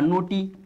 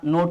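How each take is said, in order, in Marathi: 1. शब्दाच्या शेवटी 'ee' हा स्वर जोडलेला आहे. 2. शब्द 't' वर संपतो, शेवटी कोणताही स्वर नाही. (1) "नोट आहे का नोटी" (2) "ईचा उच्चारच नाही"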